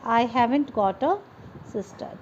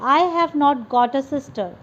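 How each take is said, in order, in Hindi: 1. 'Have not' को एक शब्द में छोटा कर दिया जाता है। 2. 'Have not' को दो पूरे शब्दों की तरह बोला जाता है।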